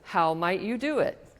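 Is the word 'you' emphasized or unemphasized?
unemphasized. The word 'you' carries no special emphasis.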